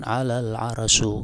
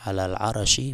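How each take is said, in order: First: The last word ends with an u vowel. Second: The last word ends with an i vowel. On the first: The speaker calls it wrong. "di dhammah bi rafil arsy" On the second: The speaker calls it right. "bi jarril arsy"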